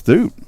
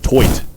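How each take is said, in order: First: "Toot" with a long oo vowel; uncorrected pronunciation. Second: "Toit" with an oy vowel; corrected pronunciation. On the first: Announcer guessing at a pitcher's surname, "Toot" with an oo. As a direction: say "Toot", rhyming with boot. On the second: Announcer correcting a pitcher's surname, "Toit" with an oy. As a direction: say "Toit", rhyming with quoit. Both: Real, not acted. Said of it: "So it's pronounced Toit".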